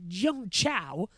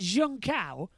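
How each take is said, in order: First: The second part begins with a ch sound. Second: The second part begins with a k sound. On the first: This is how another commentator says it. "Crofty goes on Jung Chow" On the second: This is the speaker's own usual pronunciation. "I pronounce it Jung Cow"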